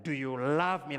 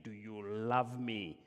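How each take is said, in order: First: "Do you love me?" much louder and higher, the agape kind of love; all-out love. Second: "Do you love me?" slow and moderate, the philos kind of love; friendly love. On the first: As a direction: throw everything into "Do you love me?". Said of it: "Like that, use the word agape". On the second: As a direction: ask "Do you love me?" as between friends, unhurried. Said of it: "He's using the word philos". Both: Shown as a demonstration.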